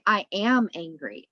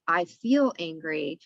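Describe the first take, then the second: First: "am" pressed firm in "I am angry"; stress on am. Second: Said in the usual way. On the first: Shown as a demonstration. Guest contrasts the labelling phrase, stress on "am". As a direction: lean on "am" as if it defines you. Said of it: "we say". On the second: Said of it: "Instead of".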